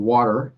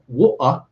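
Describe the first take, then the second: First: It is said in an American accent. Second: It is said in a British accent.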